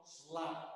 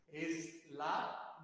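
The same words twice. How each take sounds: First: "slap" with no vowel before s; "slap" starting straight on the s; English monosyllable. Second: "es la" as two separate syllables; "es la" said the Spanish way, split in two; Spanish pronunciation. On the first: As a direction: say "slap" in a single syllable. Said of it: "no slap". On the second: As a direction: put an "e" before the s, es-LA. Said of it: "en español decimos". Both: Shown as a demonstration.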